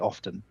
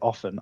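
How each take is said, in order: First: The T in the middle is pronounced. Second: The T in the middle is silent. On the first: "I pronounce the T's in words" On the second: "I don't say often"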